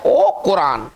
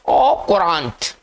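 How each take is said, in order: First: The word ends without any t sound. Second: The word ends with a pronounced t sound. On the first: The speaker calls it right. "इसका जो उच्चारण है वो है ओ कुरान" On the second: The speaker calls it wrong. "अगर इसको पता नहीं है कि ये फ्रेंच वर्ड है तो कैसे पढ़ेगा, ओ कुरांट ऐसे पढ़ेगा"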